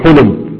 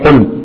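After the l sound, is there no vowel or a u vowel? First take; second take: u; none. First: The l is followed by a u vowel. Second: The l has no vowel after it. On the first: "أو عنق" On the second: "بميزان قفل"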